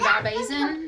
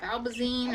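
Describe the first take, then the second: First: Valbazin, last syllable said "-zin"; first pronunciation variant. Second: Valbazine, last syllable said "-zeen"; alternative pronunciation. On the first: Goat owner naming her dewormer to viewers, pronounced Valbazin with short ending. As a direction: say "Valbazin" with a short final vowel. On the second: Goat owner offering viewers another way, pronounced Valbazine with "-zeen" ending. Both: Shown as a demonstration. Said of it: "or however you wanna say it".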